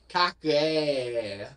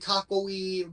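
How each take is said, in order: First: The vowel is drawn out in a Southern manner. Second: The word is said plainly, without a drawl. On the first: "almost like a weird southern thing" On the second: "the correct way"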